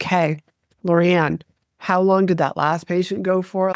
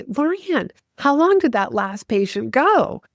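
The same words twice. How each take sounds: First: Mock disengaged, unanimated question; low-energy delivery. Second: Higher-pitched, animated question to a colleague; energetic doctor. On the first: Shown as a demonstration. Showing how a dull doctor would quiz the assistant, low-energy. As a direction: ask it with the energy drained out. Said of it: "just kinda talked like this". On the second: Retold or imitated. Doctor quizzing assistant mid-treadmill test to spur the patient, energetic. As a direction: call out the question with motivating energy. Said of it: "the energy behind Doctor Barry".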